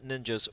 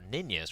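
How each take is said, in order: First: It is pronounced the usual English way. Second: It is pronounced the way a Swede would.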